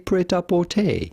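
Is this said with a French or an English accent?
English. It is said with an English accent. "it'd be fun in English or American to say"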